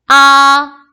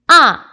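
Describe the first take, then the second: First: The pitch stays high and level. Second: The pitch falls sharply from high to low. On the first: "일성일 경우" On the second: "사성"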